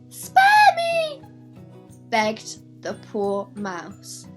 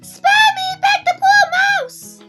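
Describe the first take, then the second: First: Only 'spare me' is in the mouse's voice. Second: The whole line is in the mouse's voice.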